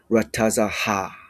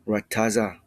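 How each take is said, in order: First: The final ha is said as a separate syllable. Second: The final ha is closed into the previous syllable. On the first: The speaker calls it wrong. "you do not say rataza ha" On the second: The speaker calls it right. "It's rataza"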